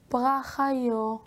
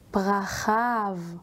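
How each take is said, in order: First: The word ends in a vowel sound. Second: The word ends in a v sound. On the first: The speaker calls it wrong. "לא פרחיו" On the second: The speaker calls it right. "אלא פרחיו. שומעים את הוו"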